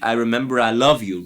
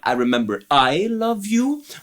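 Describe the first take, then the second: First: The stress is on love. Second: The stress is on the second I.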